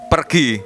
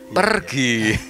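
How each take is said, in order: First: The word is said harshly and curtly. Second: The word is said gently and smilingly. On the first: A rude word brings a rough delivery. The speaker calls it right. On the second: A rude word does not fit a kind delivery. The speaker calls it wrong.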